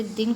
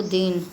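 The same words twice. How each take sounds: First: Said in the usual way. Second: Second दिन drawn out as deen; lengthened vowel. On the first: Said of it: "हास्य स्वर". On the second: Shown as a demonstration. Teacher showing a vowel error, long-ee दिन. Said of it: "दीर्घ स्वर की भांति बोला जाता है".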